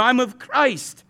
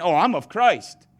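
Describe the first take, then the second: First: Slow, drawn-out snooty "I'm of Christ", a bit higher; snobbish. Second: Mock spiritual. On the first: Retold or imitated. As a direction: say it like you're above everyone. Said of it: "the most snobbish of all four". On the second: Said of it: "others of you are so spiritual".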